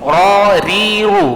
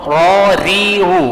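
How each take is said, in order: The two takes are said the same way.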